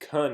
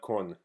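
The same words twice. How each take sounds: First: The syllable is pronounced with an English vowel. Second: The syllable is pronounced with a Spanish vowel. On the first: The speaker calls it right. "it's con" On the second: The speaker calls it wrong. "it's not con. Con is Spanish"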